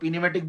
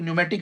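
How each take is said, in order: First: The word begins with a sounded p. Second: The word begins with an n sound. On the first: The speaker calls it wrong. "जो पीन्यूमेटिक बोल रहे हैं" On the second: The speaker calls it right. "कि न्यूमेटिक है"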